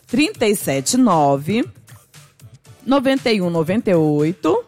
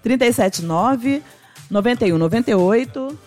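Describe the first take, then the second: First: The number is said slowly. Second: The number is said at normal speed.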